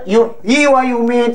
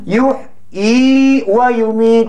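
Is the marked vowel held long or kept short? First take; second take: short; long. First: The marked vowel is kept short. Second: The marked vowel is held long. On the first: The speaker calls it wrong. "Kalau orang baca, yuhyi wa yumit. Salah ke betul?" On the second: The speaker calls it right. "Jadi mesti baca pan? Panjang"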